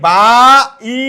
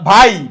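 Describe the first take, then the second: First: The two vowels are split into separate syllables. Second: The two vowels glide together as one syllable. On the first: The speaker calls it wrong. "এরকম না" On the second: The speaker calls it right. "এই আই আলাদা উচ্চারিত হয় না"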